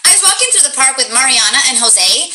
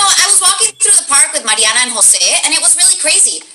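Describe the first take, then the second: First: Said in the usual way. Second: Higher voice, names said with Spanish pronunciation; supposed Spanish accent. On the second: Shown as a demonstration. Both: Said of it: "let's just do it without an accent".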